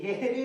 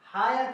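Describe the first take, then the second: First: The first vowel sounds like 'eh', ending in 'ee'. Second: The first vowel sounds like 'eye', ending in 'er'. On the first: The speaker calls it wrong. "हेरी नहीं पढ़ना है" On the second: The speaker calls it right. "हायर पढ़ना है"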